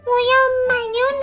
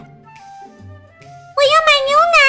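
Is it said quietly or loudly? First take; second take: quietly; loudly. First: It is said in a small, quiet voice. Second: It is shouted in a loud voice.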